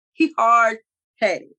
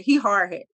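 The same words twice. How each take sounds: First: He hard-headed, each word stretched slowly and leaned on; slow emphatic repeat. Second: Said in the usual way. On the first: Real, not acted. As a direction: drag out He hard-headed to make the point. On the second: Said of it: "repeats for emphasis".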